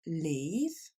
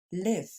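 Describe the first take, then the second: First: "Leave" with a long ee, rising. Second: "live" with a short i, falling. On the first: Teacher repeats the contrast, "Leave" with a long ee. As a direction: stretch the ee in "Leave". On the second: Teacher repeats the contrast, "live" with a short i. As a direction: clip the i in "live". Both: Shown as a demonstration. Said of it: "Encore une fois".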